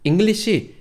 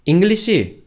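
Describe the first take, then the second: Both takes have the same delivery.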